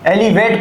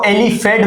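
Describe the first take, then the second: First: The middle consonant is a v sound. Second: The middle consonant is an f sound. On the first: The speaker calls it right. "एलिवेट को" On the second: The speaker calls it wrong. "एलिफेट बोल दिया है"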